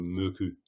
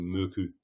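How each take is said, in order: First: The middle consonant is a voiceless k sound. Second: The same.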